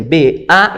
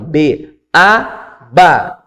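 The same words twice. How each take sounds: First: B even, A lifted and left open; unresolved pattern. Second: Teacher's resolved spelling pattern on ba; pattern-setting drill. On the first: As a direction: raise A and leave it waiting. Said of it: "e não resolve". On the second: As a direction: chant B, A up, then land hard on ba. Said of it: "quando você estabelece esse padrão". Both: Shown as a demonstration.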